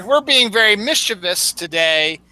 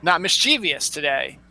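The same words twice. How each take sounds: First: "mischievous" as MIS-chuh-vus; three-syllable mischievous. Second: "mischievous" as mis-CHEE-vee-us; four-syllable mischievous. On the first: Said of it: "the right way to say". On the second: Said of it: "not mischievous today". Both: Shown as a demonstration.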